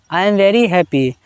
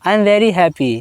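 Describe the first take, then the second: No difference in how they are said.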